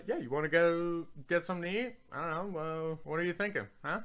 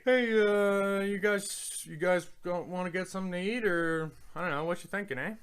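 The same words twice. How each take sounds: First: Lightly acted invitation ending on "huh"; casual American suggestion. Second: Casual Canadian suggestion. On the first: Showing how Americans use huh, casual American suggestion. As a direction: toss it out casually, slightly raised. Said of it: "Americans use huh in a very similar way". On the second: Asking friends if they want to eat, casual Canadian suggestion. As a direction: float it to the group, pitched up. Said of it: "And I'd say". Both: Shown as a demonstration.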